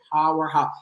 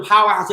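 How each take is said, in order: First: "powerhouse" drawn into his own particular pronunciation, low and soft. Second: Said in the usual way. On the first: Shown as a demonstration. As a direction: say "powerhouse" as the one proper way, lower and softer. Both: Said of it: "you have to say powerhouse".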